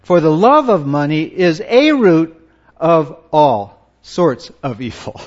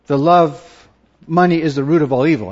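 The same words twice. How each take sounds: First: A said as a full, stressed "ay" before "root"; loud and deliberate on "is A root". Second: Said in the usual way. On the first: Shown as a demonstration. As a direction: punch A in "a root" to correct the saying. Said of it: "Well, well, the scripture says". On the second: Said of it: "Have you ever heard that?".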